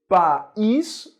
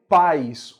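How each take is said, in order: First: "país" in two beats, pa-ÍS; stress on país. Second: "pais" as one syllable, PAIS; stress on pais. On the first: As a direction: split "país" so that ÍS is its own stressed syllable. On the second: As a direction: glide "pais" into one drawn-out beat. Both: Shown as a demonstration. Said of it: "Se eu retirar o acento".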